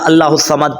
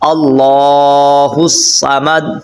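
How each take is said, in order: First: The vowel after the l is short. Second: The vowel after the l is long. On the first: The speaker calls it wrong. "اللہ الصمد پڑھ بیٹھتے ہیں" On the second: The speaker calls it right. "تو کھڑا زبر پڑھنا بہت ضروری ہے"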